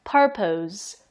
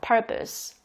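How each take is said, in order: First: The second syllable ends with a z sound. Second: The second syllable is weak with an 'uh' vowel. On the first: The speaker calls it wrong. "그 즈 발음을 내셔서" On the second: The speaker calls it right. "강세가 펄에 들어가기 때문에 이렇게 펄이 크게 발음되고 나머지는 작게 발음돼요. 그리고 약간 포스보다는 어 발음이 나요"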